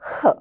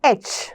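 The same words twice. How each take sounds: First: Only the breathy h sound is said. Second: The letter is said by its name, aitch. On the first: The speaker calls it right. "നമുക്ക് ഇന്ന് Hനെ നമ്മൾ വേറെ വിധത്തിലാണ് പഠിക്കുന്നത്" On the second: The speaker calls it wrong.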